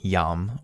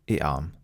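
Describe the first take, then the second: First: The word is said as one syllable. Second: The word is said as two syllables. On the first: "is this one syllable" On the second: "or two"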